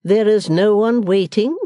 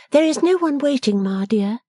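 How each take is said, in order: First: Slow, loud, stately echo; majestic. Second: Higher-pitched daughter answering; reply plainly in a high, young woman's voice; Bella's voice. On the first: Missus Wilfer echoing her daughter in disbelief, majestic. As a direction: repeat it grandly, drawn out and loud. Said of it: "repeated Missus Wilfer in majestic accents". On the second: Bella telling her mother nobody attends, pitched up. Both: A narrator's reading.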